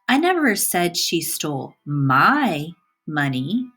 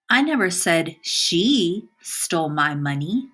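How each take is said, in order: First: The word "my" carries the stress. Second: The word "she" carries the stress. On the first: Somebody else's money was stolen. "the emphasis is on my" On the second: Somebody else did it. "By emphasizing the word she"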